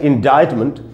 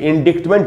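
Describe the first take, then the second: First: No k sound is heard before the t. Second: A k sound is heard before the t. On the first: The speaker calls it right. "लेकिन इसका उच्चारण होता है इंडाइटमेंट" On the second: The speaker calls it wrong. "ये देखने में तो ऐसा लगता है कि इंडिक्टमेंट हो"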